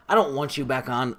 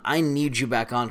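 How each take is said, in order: First: "want" leaned on as the word being rejected; stress on want. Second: "need" leaned on as the stronger word; stress on need. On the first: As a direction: set up "want" to be corrected. Contrasts want with need. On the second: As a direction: correct it with emphasis on "need". Corrects want to need. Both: Real, not acted.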